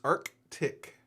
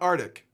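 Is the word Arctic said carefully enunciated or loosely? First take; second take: enunciated; loosely. First: The word is said with every sound enunciated. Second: The word is said loosely, not fully enunciated. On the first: The speaker calls it right. "It's Arctic. Make sure you get it right" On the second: The speaker calls it wrong. "It's not Arctic"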